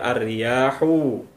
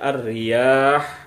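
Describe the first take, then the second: First: The word ends with a short u vowel. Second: The word ends on a bare h sound. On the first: The speaker calls it wrong. "tidak dibaca ar-riyahu" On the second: The speaker calls it right. "kita membaca huruf yang terakhir dengan mematikan atau mensukunkannya"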